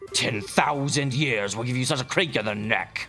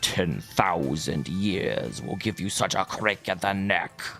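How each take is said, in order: First: It is a weaker imitation of Illidan's voice. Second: It is a closer imitation of Illidan's voice.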